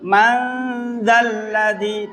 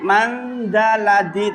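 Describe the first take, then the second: First: The l sound is held long, with nasal hum. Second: The l sound is short, without nasal hum. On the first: The speaker calls it right. "zal kelam ada tasdid" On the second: The speaker calls it wrong. "bukan mandaladi"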